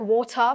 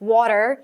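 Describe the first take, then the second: First: The word is said without the final r sound. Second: The t in the middle sounds like a d. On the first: "अब now it's like वाटर" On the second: "American accent आया, and now these people they are like वाटर"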